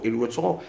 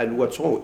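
First: الوتر as "al-witr"; short i after the w in الوتر; kasra reading. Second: الوتر as "al-watr"; short a after the w in الوتر; fatha reading. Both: Shown as a demonstration. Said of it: "ديال الفتح والكسر".

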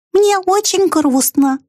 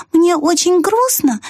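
First: High and slow, weight on Мне; sad mouse voice. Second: High and slow, weight on грустно with a falling end; sad mouse voice. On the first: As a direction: stress Мне, drawn out in a tiny voice. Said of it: "сказала она". (грустный мышиный голосок, ударение на «Мне») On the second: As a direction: lean on грустно and let it fall. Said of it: "повторила мышь". (грустный мышиный голосок, ударение на «грустно») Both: A narrator's reading.

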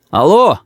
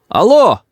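First: Громко кричит в трубку; зовёт в телефон; крик. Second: Громкое «Алло!» выше, настойчиво; зовёт в телефон снова, громче; громче крик. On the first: (громкое «Алло!» в трубку) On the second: (ещё громче «Алло!») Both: A narrator's reading. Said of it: "закричал я в трубку".

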